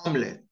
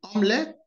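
First: "omelette" squeezed to an American AHM-let; American pronunciation. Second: "Omelette" said the British way, OM-let; British pronunciation. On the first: Teacher contrasting the accents, American take. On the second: Teacher contrasting the accents, British take. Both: Shown as a demonstration. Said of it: "Notice the difference".

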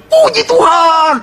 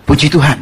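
First: High, drawn-out yell; exultant shout. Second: Said in the usual way. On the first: Acted. Rider spurring his galloping horse, exultant shout. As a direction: holler it long and high to spur the horse on. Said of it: "teriak puji Tuhan, makin kenceng dia".

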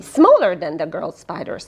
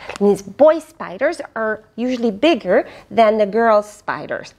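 First: Smaller said lower as a correction; corrected take, smaller stressed and dropped in pitch. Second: Said in the usual way. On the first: Shown as a demonstration. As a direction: correct yourself, leaning on smaller. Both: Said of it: "Oh, excuse me".

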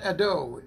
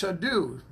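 First: "Ado" with a plain long O at the end, the wrong way; wrong pronunciation. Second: "Adu" ending in an oo sound, not oh; right pronunciation. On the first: Greeting a church member, showing the wrong way to say "Ado". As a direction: say "Ado" ending in an oh sound, as the mistake. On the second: Greeting Sister Adu, saying her name the correct way, "Adu". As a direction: say "Adu" with a clear oo at the end. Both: Shown as a demonstration. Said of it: "it's not Ado".

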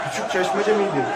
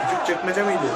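First: "çeşmece" tried hesitantly as a guess; "çeşmece" said as a doubtful first try at the name; unsure place name. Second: "çekmece" said as the second guess; "çekmece" swapped in as a doubtful correction; corrected place name. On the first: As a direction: ask "Küçük çeşmece miydi?" puzzled, with "çeşmece" for the name. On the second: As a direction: try again with "çekmece", still unsure. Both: Retold or imitated.

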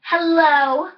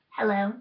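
First: Said in the usual way. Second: A much softer, lower hello. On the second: Pretend. One doll answers the other's hello, much softer. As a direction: drop it right down to a hush.

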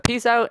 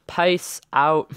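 First: Said in the usual way. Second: Odd accent with "Peace" bent toward "pice"; weirdest accent. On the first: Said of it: "I'm gonna redo that". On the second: Real, not acted. Player signing off to viewers, weird accidental accent. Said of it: "the weirdest accent ever".

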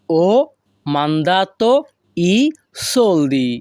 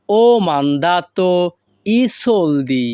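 First: A clear pause after every word. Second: Said in the usual way. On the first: Shown as a demonstration. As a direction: set each word apart for learners. Teacher repeats phrase word by word. (প্রতিটি শব্দের পরে থেমে)

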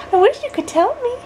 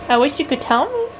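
First: Put-on much higher, sing-song baby voice; high baby talk. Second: Put-on baby talk. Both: Mom cooing to baby.

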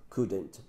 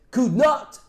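First: Said in the usual way. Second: Could not said as two words, not stressed, louder; separated for emphasis. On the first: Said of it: "você usa o mustn't". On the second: Shown as a demonstration. Teacher showing the emphatic negative, each word distinct. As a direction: split Could not apart to sound more negative. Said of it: "você separa".

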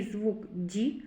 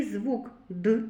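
First: "звук Д" with "Д" palatalised, like "dʲ"; soft D sound. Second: "звук Д" with "Д" as a hard, unsoftened d; hard D sound. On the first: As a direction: soften the "Д" in "звук Д" towards "дь". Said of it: "м'який". («звук Д» з м'яким «дь») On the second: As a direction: say the "Д" in "звук Д" hard, without palatalising. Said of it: "Твердий". («звук Д» з твердим «д») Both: Shown as a demonstration.

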